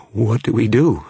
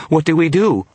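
First: High, loud, frightened plea; scared, raised voice; shaking voice. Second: Very high, loud terrified cry; shaking, panicked voice. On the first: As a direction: ask in mounting panic. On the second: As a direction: wail it in full panic. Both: A narrator's reading. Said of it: "His voice was shaking".

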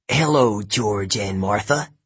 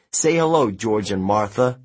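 First: Slow, sarcastic rasp; raspy male snake. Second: Said in the usual way. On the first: A narrator's reading. George the snake mocks the jogger's greeting, raspy and sarcastic. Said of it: "a raspy male voice said".

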